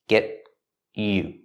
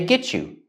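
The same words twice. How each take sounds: First: The T is stopped before you. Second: The T and Y blend into a ch sound. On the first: "we pronounce T as a stop T" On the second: "make the sound ch-ch like chicken"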